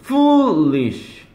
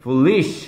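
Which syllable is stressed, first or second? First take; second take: first; second. First: The stress is on the first syllable. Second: The stress is on the second syllable. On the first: The speaker calls it right. "foolish지" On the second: The speaker calls it wrong. "이렇게 되는 게 아니란 말이에요"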